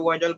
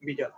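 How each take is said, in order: First: ভাইটাল with a long "eye" vowel in the first syllable; common mispronunciation. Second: ভিটাল with an "ee" vowel in the first syllable; corrected pronunciation. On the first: Teacher quoting how many people say the test's name, mispronounced ভাইটাল with an "ai" vowel. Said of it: "অনেকে ভাইটাল বলে". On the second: Teacher correcting the test's name for students, pronounced ভিটাল with an "ee" vowel. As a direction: say ভিটাল, opening on "bhee" rather than "bhai". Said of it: "উচ্চারণটা হবে আসলে ভিটাল". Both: Shown as a demonstration.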